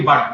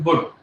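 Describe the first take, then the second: First: The word is said with a plain pronunciation. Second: The word is said with a regional English vowel. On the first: "If you put the pronunciation as well, it's only but" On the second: "in England there are a lot of people who will say "bud.""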